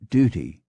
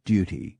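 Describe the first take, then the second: First: The vowel is a plain oo sound. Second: The vowel is a yoo sound. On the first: This is how northerners say it. "prefer the oo sound" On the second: This is how people outside the north say it. "to the u sound"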